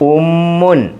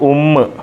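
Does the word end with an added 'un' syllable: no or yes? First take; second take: yes; no. First: The word ends with a final 'mun' syllable. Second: The word stops short on the 'mm' sound. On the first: This is the full written form. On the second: This is the form used when stopping at a full stop.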